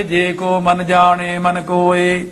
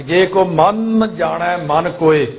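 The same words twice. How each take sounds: First: Both ਮਨ the same, ਜਾਣੇ with e, sung slowly; imitating the usual wrong chant; common mistake. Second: First ਮਨ pressed hard, second ਮਨ light, ਜਾਣੈ with ai, slow; correct reading. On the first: Teacher mimicking how everyone misreads the line. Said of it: "ਸਾਰੇ ਜਣੇ ਇਸ ਤਰ੍ਹਾਂ ਹੀ ਬੋਲਦੇ ਨੇ". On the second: Shown as a demonstration. Teacher giving the model reading of the line, slowly. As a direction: tighten the first ਮਨ, loosen the second. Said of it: "ਇਸ ਤਰ੍ਹਾਂ ਬੋਲਣਾ ਹੈ".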